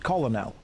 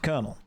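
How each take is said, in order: First: The word is pronounced the way it is spelled. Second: The word is pronounced differently from its spelling. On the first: The speaker is not in the know. The speaker calls it wrong. "It's not pronounced colonel" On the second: The speaker is part of the in-group. The speaker calls it right. "it's pronounced colonel"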